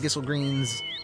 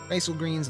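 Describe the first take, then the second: First: The first syllable has the vowel of 'kiss'. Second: The first syllable has the vowel of 'eye'. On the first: "I don't care if it's pronounced Gissel" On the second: "I like pronouncing it as Geisel greens"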